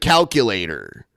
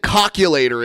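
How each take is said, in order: First: The first vowel sounds like an A. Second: The first vowel sounds like an O. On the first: This is the usual pronunciation. The speaker calls it right. "instead of calculator" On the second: This is how another person mispronounces it. The speaker calls it wrong. "He said calculator"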